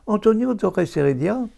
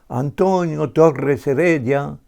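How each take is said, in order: First: The stress falls on the last syllable of each word. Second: The stress falls on different syllables in each word. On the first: The speaker calls it wrong. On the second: The speaker calls it right.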